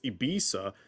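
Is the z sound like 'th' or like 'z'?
z. The middle consonant sounds like z.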